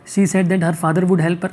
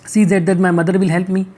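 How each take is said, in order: First: Slow, careful read of the right answer; correct option read slowly. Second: Said in the usual way. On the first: Shown as a demonstration. Teacher reads the right option to the class, slowly. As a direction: lay it out slowly, word by word. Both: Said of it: "अब देखो क्या करना है".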